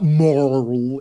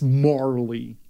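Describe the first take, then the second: First: The name is said as one syllable. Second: The name is said as two syllables. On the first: The speaker calls it wrong. "It's not Marl" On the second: The speaker calls it right. "it's Marley"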